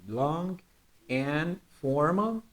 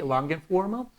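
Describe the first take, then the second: First: LONG, a pause, then slowly AND FORMAL, rising at the end; separated words. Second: "Long and formal" linked in one breath, rising at the end; connected words. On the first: Teacher dictating the complement to students, separated words. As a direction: say "Long" and "and formal" apart, drawn out and soft. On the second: Teacher showing students how to connect "Long and formal", smoothly linked. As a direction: join LONG straight onto AND FORMAL without a pause. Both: Shown as a demonstration. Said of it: "try to connect this".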